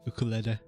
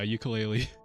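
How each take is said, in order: First: The word has the original, non-anglicized pronunciation. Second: The word has the common anglicized pronunciation.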